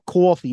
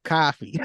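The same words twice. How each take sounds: First: "coffee" with a rounded "aw" vowel; Long Island pronunciation. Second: "coffee" with an open "ah" vowel; Boston pronunciation. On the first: Co-host teasing Long Island speech, "coffee" said "cawfee". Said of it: "being from Long Island". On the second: Co-host contrasting Boston speech, "coffee" said "cahfee". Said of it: "somebody very fucking Bostonian". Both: Shown as a demonstration.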